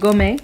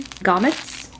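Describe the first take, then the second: First: The word is said with a French-style accent. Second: The word is said with a plain accent.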